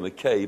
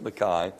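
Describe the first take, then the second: First: The last syllable does not sound like 'eye'. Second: The last syllable sounds like 'eye'. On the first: This is how the speaker's own community says it. "we would say Mackay" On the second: This is how it is said in Scotland. "they would pronounce it Mackay"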